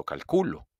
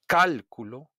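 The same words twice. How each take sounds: First: "calculo" with weight on middle CU; stress on CU. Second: "cálculo" punched on first syllable CÁL; stress on CÁL. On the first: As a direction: lean on CU in "calculo". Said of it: "escucha a tu profesor leer estas oraciones". ("calculo" acentuado en CU) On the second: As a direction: hit CÁL hard in "cálculo". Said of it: "hago un golpe de voz". ("cálculo" con golpe de voz en CÁL) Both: Shown as a demonstration.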